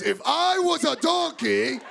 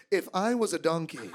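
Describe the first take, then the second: First: Slow, high, indignant repetition; irritated repeat. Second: Said in the usual way. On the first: Retold or imitated. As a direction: repeat it slowly, pitched up and emphatic. Irritated repeat after being questioned.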